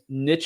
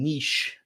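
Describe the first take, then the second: First: It is pronounced the American way. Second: It is pronounced the Canadian way. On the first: "is the American pronunciation" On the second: "is the uh, Canadian"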